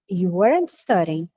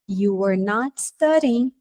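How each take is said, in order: First: The words are joined into one contracted form. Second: The words are said separately with a pause. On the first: A plain statement of fact. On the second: An emphatic, scolding accusation.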